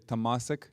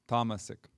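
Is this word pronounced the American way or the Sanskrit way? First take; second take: American; Sanskrit. First: It is pronounced with an American English accent. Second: It is pronounced with the original Sanskrit sounds. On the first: "in America we say tamasic" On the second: "you heard the Sanskrit pronunciation, which is tamasic"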